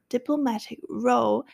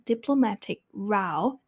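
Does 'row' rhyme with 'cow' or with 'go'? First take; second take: go; cow. First: Row sounds like the boat word, rhyming with go. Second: Row sounds like the quarrel word, rhyming with cow. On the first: A line of things. The speaker calls it wrong. "我说diplomatic row 是错的" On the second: A quarrel. The speaker calls it right. "应该是要diplomatic row 才最正确"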